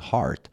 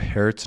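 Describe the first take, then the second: First: The vowel sounds like the a in 'car'. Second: The vowel sounds like the e in 'her'. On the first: The speaker calls it right. "تلفظ هارت" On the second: The speaker calls it wrong. "این رو هرت نخونید"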